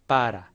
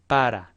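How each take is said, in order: No difference in how they are said.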